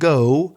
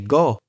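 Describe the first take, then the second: First: The vowel glides from one sound to another. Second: The vowel stays on one steady sound. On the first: The speaker calls it right. "Instead of saying go" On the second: The speaker calls it wrong. "they will say it badly and they will say go"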